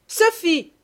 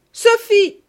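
First: Much higher, loud angry call; furious call. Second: Far higher, much louder furious shriek; stepmother's second, fiercer yell; furious scream. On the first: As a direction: summon the girl furiously. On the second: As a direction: scream her name in rage. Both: Acted. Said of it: "la voix furieuse de madame Ficquini".

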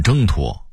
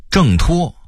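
First: 挣脱 as zhēngtuō; level first tone on 挣 in 挣脱; Beijing reading. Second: Said in the usual way. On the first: Shown as a demonstration. Narrator contrasting word lists, Beijing reading. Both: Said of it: "北京话念挣脱".

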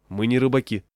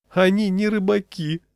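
First: Said in the usual way. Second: High-pitched, tormented exclamation; anguished cry. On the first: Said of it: "сказал я". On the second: A narrator's reading. Peddler to refusing customers, anguished outcry. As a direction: cry out in wounded disbelief. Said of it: "с мукой в голосе выкрикнул".

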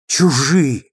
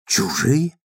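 First: Чужие said again with a falling, final tune; bitter repetition. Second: Чужие asked with a rising, stunned tune; disbelieving question. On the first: D'Urberville repeating the word to himself, bitter fall. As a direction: let чужие land flat and bitter. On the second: D'Urberville repeating Tess's word, stunned question. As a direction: echo чужие as if you can't believe it. He echoes her cold word. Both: A narrator's reading.

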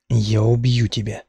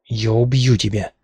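First: Slow, cold, level threat; slow icy threat, no shouting; cold calm threat. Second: Yelled threat while struggling; mild mock yell of the threat; screamed threat. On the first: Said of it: "Я даже не кричала". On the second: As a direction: scream it as you fight free. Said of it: "вопила я". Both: A narrator's reading.

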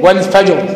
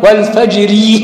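First: والفجر stopped on a silent ra, fajr; Quranic pause reading. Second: والفجر read slowly with the final ra voweled, fajri; Quranic wasl reading. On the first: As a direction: recite والفجر with a pause, ra sukun. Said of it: "وقفت عليها إيه؟". (والفجر بالوقف وتسكين الراء) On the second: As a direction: recite والفجر joined, ending on a light kasra ri. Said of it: "مرققة م-، مك-، آه، وصلًا". (والفجر بالوصل مع كسر الراء مرققة) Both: Shown as a demonstration.

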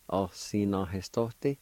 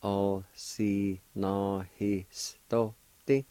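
First: Said in the usual way. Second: "Osinohistote" stretched out very slowly. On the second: Shown as a demonstration. Teacher slowly modelling the word for learners. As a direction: draw out "Osinohistote" carefully. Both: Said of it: "like this".

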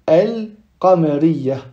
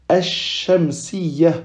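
First: Drawn-out al-qamariyya with audible lam; lam pronounced. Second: Slow ash-shamsiyya with doubled sh; lam silent, shin doubled. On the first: Teacher showing the lam is heard, lam pronounced. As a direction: hold the L in al, slowly. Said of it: "on prononce le lam". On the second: Teacher demonstrating a solar letter, shin doubled. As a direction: drop the L and hold the sh. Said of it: "On prononce pas le lam, mais plutôt on dédouble". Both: Shown as a demonstration.

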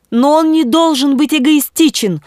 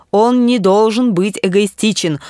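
First: High-pitched bishop's protest; impassioned exclamation. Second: Said in the usual way. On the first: A narrator's reading. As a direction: cry out in objection, much higher. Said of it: "воскликнул епископ". (пылкое восклицание) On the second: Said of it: "сказал Эрнест".

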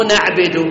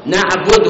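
First: نعبد with an i on the ba, naʕbid; نعبد read as the mistake naʕbid; wrong reading. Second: نعبد with the ba rounded, naʕbudu; نعبد read right with an u on the ba; correct reading. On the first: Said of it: "مو بكسر الباء". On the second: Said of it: "بضم الباء". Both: Shown as a demonstration.

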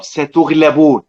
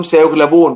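First: "ستغلبون" said with a clear ta sound at the start, drawn out; slow, deliberate "ستغلبون" with ta, the address form; second person reading. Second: "سيغلبون" said with a clear ya sound at the start; third person reading. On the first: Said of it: "يبقى الخطاب". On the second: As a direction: stress the opening "سي" of "سيغلبون" as the absent-person form. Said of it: "بيحكي عن الناس في الغيبة". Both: Shown as a demonstration.

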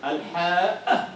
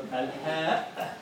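First: الحاء said very slowly with a long, breathy ħ; drawn-out haa. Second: الحاء said very slowly in a softer, different timbre; Egyptian-style haa. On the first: Teacher demonstrates the classical ḥ slowly. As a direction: stretch the ḥ in الحاء, laughing slightly. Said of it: "فقالت الحاء". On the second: Teacher contrasts the Egyptian dialect pronunciation. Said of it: "هذا في كلام المصريين يقولون حاء". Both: Shown as a demonstration.

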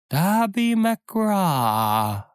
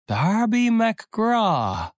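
First: High, drawn-out wailing name; ghostly whining. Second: Very high, slow, long whining cry; keen the name like a haunting spirit; ghostly wail, rising. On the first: Ghostly voice wails a name at the frightened pirates. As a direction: wail it like a lost soul from afar. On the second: The ghost calls out again to the pirates, wailing higher. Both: Acted. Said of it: "winselte es".

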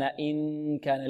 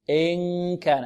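First: إن كان with tongue tip, soft and slow; wrong nasal placement. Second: إن كان nasal from the back of the tongue; correct ikhfa. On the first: Teacher demonstrating the wrong ikhfa softly. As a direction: show the tongue-tip error. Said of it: "لا نقول". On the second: Teacher modelling the correct ikhfa. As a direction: glide the nun toward the kaf. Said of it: "بعد ذلك إن ك". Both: Shown as a demonstration.

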